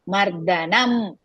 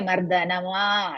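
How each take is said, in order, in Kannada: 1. ಪದವು ಸ್ವರವಿಲ್ಲದ m ಧ್ವನಿಯಲ್ಲಿ ಕೊನೆಗೊಳ್ಳುತ್ತದೆ. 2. ಪದವು m ನಂತರ ಸೇರಿಸಿದ ಸ್ವರದಲ್ಲಿ ಕೊನೆಗೊಳ್ಳುತ್ತದೆ. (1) "last ma is half" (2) "Don't say mardhanama like that"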